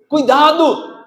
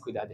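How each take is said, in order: First: The word is said forcefully, as an exclamation. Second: The word is said calmly and flatly. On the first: The speaker calls it right. "Olha lá a exclamação" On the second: The speaker calls it wrong. "mas não é assim"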